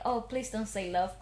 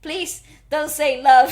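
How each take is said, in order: First: Low, soft plea under the breath; quiet dread. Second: Loud, slow, insistent begging; louder plea. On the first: Retelling dread at the coming line, quiet plea. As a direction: plead privately, voice dropped. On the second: Retelling dread at the coming line, loud insistent plea. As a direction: beg it out word by word. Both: Retold or imitated.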